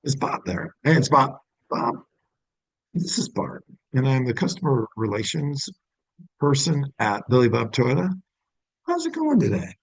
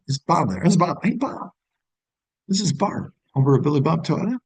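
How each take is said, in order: First: Cold, first-call phone greeting; phone greeting demo. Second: Bright, high friendly greeting as if he knows you; familiar tone. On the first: Dealership rep calling a customer for the first time, polite phone greeting. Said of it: "when you would use that". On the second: Dealership rep calling Bob like an old acquaintance, friendly and familiar. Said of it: "I'm gonna redo that tone". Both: Shown as a demonstration.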